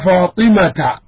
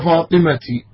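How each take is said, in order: First: The name ends with an 'a' vowel. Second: The name ends with an 'i' vowel. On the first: The speaker calls it right. "فتقول مثلا سلمت على فاطمة" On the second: The speaker calls it wrong. "ولا تقول سلمت على فاطمتي"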